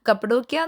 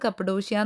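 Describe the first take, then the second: First: It is said with a 'k' sound before the end. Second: It is said with a 'sh' sound before the end. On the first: This is how people back home say it. "കപ്പഡോക്യ എന്നാണ് നമ്മൾ പറയുന്നതെങ്കിലും" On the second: This is how the locals say it. "അവർ pronounce ചെയ്യുന്നത് കപ്പഡോഷ്യ എന്നാണ്"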